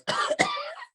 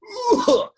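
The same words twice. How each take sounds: First: Rona cough. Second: Light rattly smoker's cough; smoker's rasp. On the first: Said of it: "And the Rona cough is more like". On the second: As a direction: cough like a happy old smoker. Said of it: "So this is the smoker's cough". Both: Shown as a demonstration.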